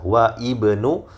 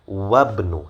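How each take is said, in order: First: The two words are separated, with the vowel pronounced. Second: The two words are linked, dropping the initial vowel. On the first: The speaker calls it wrong. "Tidak masalah kalau mau dipisah" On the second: The speaker calls it right. "yang lebih fasih tentu saja ya wabnu"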